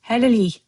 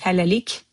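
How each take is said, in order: First: The word ends with a soft y sound. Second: The word ends with a hard k sound. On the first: "you're going to soften the k at the end and you're going to say it as y" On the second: "officially we write halalik"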